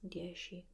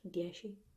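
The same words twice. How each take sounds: First: The middle consonant sounds almost like an S. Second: The middle consonant sounds almost like an H. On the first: "they tend to pronounce it quite like an S" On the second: "almost pronounce an H"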